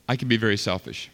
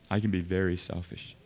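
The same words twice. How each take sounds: First: Said in the usual way. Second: Much softer and lower, almost to himself; quiet confession. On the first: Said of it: "confessing own selfishness". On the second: Real, not acted. Pastor confessing his own selfishness, hushed and low. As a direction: drop it to a hushed, lower admission. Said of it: "repeats confession much softer".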